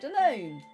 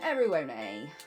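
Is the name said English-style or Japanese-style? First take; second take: English-style; Japanese-style. First: The name is said with English sounds. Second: The name is said with Japanese sounds. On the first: "since we are playing in English" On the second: "Or in Japanese"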